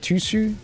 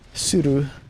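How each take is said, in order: First: The name begins with a T sound. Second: The name begins without a T sound. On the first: The speaker calls it wrong. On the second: The speaker calls it right.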